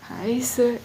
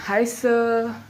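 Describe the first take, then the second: First: It is said quietly, with little energy. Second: It is said more loudly, with more energy. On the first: "ऐसे नहीं बोलना है, जोर से बोलना है" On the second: "ऐसे भी नहीं, और जोर से"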